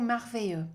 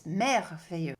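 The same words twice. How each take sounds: First: Merveilleux said with an English "mar" sound; the learner's anglicised merveilleux; English-brain merveilleux. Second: Merveilleux with a French "mer" and a Y sound for the double L. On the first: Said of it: "people love saying". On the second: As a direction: correct French merveilleux, weight on the end. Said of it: "it's merveilleux with a letter E". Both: Shown as a demonstration.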